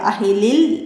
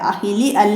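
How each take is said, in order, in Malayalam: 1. അലിഫ് ഒഴിവാക്കും, വാക്കുകൾ ചേർത്ത് വായിക്കും. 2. അലിഫ് വേറെ 'al' ആയി ഉച്ചരിക്കും. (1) "ഇടയിൽ വന്നാല് നമ്മളത് ഉച്ചരിക്കാതെ അടുത്ത അക്ഷരത്തിലേക്കാണ് ഇവിടെ ചേർത്ത് പറയുക" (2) "അഹിലി അൽ എന്ന് പറയൂല"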